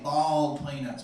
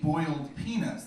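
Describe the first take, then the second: First: It is said in a Southern accent. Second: It is said in a plain, non-Southern accent. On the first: "they've got that southern accent, ... They say bald peanuts" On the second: "they don't say boiled peanuts"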